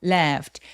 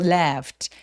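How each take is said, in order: Both takes have the same delivery.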